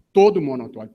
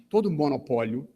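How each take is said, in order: First: TODO punched out much louder; emphatic, loud hit on TODO; stress on TODO. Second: Said in the usual way. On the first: Real, not acted. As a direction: hammer the word TODO, forcefully. Repeats phrase for emphasis.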